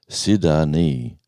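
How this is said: The name is said imitating another speaker's pronunciation. Someone else said it this way. "he said"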